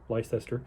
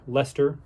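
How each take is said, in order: First: The name is said fully, following its spelling. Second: The name is said in its usual shortened form.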